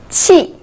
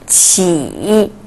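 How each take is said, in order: First: The pitch falls sharply from high. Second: The pitch dips low then rises.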